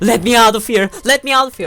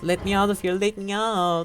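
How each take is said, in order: First: It is shouted with intense, desperate energy. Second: It is said mildly, without much intensity.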